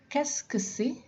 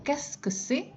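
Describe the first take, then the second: First: Higher, careful Qu'est-ce que c'est; high model question. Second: Higher Qu'est-ce que c'est with a rise on c'est; repeated high model. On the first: Teacher models the question for the class in a raised voice. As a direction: pitch it up for learners to copy. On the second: Teacher repeats the question for students in a higher voice. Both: Shown as a demonstration. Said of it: "Saya ulang".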